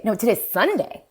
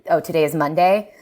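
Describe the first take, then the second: First: SUNDAY dipped, then sharply raised in pitch; higher pitch, contrastive punch on SUNDAY; corrective stress. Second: Said in the usual way. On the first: Shown as a demonstration. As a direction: correct the day with a fall and dramatic rise on SUNDAY. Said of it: "doing some kind of correction". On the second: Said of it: "if I were to say".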